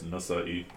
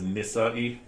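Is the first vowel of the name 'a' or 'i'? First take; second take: a; i. First: The first vowel is an 'a' sound. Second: The first vowel is an 'i' sound. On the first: The speaker calls it right. "so it's Nasa'i" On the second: The speaker calls it wrong. "some people mispronounce it as Nisa'i"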